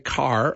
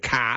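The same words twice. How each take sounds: First: It has a pronounced American R at the end. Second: It ends without an R, Boston style.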